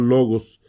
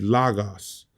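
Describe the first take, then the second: First: The first vowel is a rounded 'oh' sound. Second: The first vowel is an open 'ah' sound. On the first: The speaker calls it right. "como lo pronunciaremos en español" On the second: The speaker calls it wrong. "Muchos les enseñan a decir lagos"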